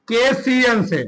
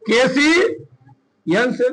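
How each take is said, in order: First: Said in the usual way. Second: KCN से stretched, letters held long; KCN से very slowly, letter by letter; slow spelling-out. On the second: Shown as a demonstration. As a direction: draw out KC, pause, then finish KCN से. Formula repeated slowly while writing.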